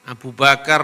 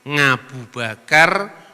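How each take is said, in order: First: The name begins with a plain vowel sound. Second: The name begins with an ng sound.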